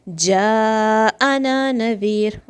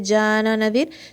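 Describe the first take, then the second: First: The hamza is sounded clearly after the long vowel. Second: The long vowel and hamza run together. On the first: The speaker calls it right. "there is a mad and then there's hamza... It should be clear" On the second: The speaker calls it wrong. "So don't blend them together. Don't say jana nadir"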